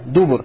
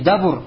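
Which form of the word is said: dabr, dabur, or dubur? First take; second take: dubur; dabur. First: The word has u vowels in both syllables. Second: The word has a then u as vowels. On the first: "дубур пишется с даммой над даль" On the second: "Уже будет как не дабур"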